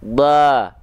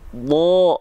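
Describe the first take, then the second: First: The vowel is a light, thin a sound. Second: The vowel is a heavy, o-like sound. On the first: The speaker calls it wrong. "dia dibaca bukan ba" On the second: The speaker calls it right. "tapi bo"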